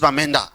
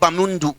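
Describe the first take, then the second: First: The name is said as Bamenda. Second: The name is said as Bamundu. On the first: The speaker calls it right. "they are helping him pronounce Bamenda" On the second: The speaker calls it wrong. "a place called Bamundu"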